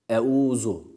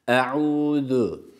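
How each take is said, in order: First: It has no throaty ayn and a sharp z. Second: It has a throaty ayn and a lisped th. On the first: The speaker calls it wrong. "şu yanlış bir okuyuş olur" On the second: The speaker calls it right. "hem ayın hem de peltek olan Z harfine dikkat ediyoruz"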